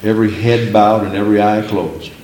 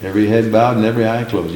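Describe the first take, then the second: First: Measured altar-call cadence, lightly voiced; a hint of a revival preacher; preacher's call. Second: Rattled off fast, brushing it aside; fast, mildly mocking repeat; quick dismissive. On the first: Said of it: "preachers say". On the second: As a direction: toss the phrase away quickly. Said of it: "Just the opposite".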